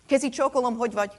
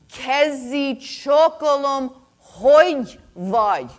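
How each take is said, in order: First: It is said at normal volume and speed. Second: It is said slower and louder.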